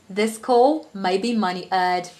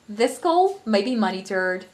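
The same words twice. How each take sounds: First: It is spoken in a British accent. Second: It is spoken in an American accent. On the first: "So I'll start with the British accent" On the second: "the American accent"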